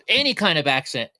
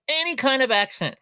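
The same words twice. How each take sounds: First: Said in the usual way. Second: "any kind of accent" jumps much higher; excited emphasis. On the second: Shown as a demonstration. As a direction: lift "any kind of accent" up high with glee.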